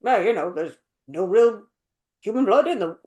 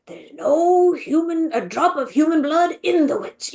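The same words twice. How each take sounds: First: Low, uninvolved mock line reading; unanimated. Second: Animated grandpa. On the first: Imitating the British beaver telling the story, unanimated. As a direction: recite it with no animation. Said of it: "he's not just like". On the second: Retold or imitated. Imitating the American beaver telling the story, animated grandpa. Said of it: "like, animated, and he feels like a grandpa".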